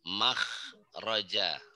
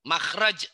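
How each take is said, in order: First: The word ends with a final vowel sound. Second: The word ends on a consonant, vowel dropped.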